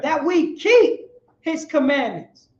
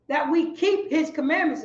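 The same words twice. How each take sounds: First: Slow, louder, every word weighed; slow emphatic echo. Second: Said in the usual way. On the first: Shown as a demonstration. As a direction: drive the verse home word by word. Call-and-response echo of the verse.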